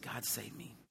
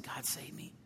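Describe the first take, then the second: First: Quiet plea. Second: Softer, breathless whisper of a plea. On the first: Retold desperate prayer. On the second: Retelling his prayer to God, whispered. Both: Retold or imitated.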